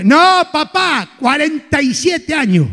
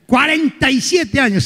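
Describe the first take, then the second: First: Slow, proud "cuarenta y siete años"; leisurely bragging of "cuarenta y siete años"; slow boast. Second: Savouring "Cuarenta y siete años"; slow boast. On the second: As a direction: repeat "siete" drawn out. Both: Acted. Vain man repeating his age.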